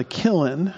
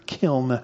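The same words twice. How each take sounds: First: Kiln said as two syllables, KIL-in. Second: Kiln as a single syllable, the l running straight into the n; one-syllable kiln. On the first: Preacher stumbling on a word in verse eight, kiln mispronounced as KIL-in. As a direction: break kiln in two with an extra vowel before the n. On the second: Preacher correcting himself before the congregation, kiln in one syllable. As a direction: say kiln with no vowel between l and n. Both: Real, not acted. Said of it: "two syllables in there".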